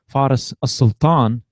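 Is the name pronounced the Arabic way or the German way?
Arabic. The name is pronounced the Arabic way. "would be the Arabic way"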